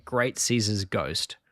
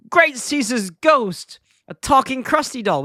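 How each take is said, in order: First: Said in the usual way. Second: High-pitched, drawn-out mock astonishment; Bart. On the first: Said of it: "weirdest thing for Bart to say". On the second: Bart spots the talking doll, mock astonished. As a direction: exclaim it like a startled cartoon boy. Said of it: "Bart starts".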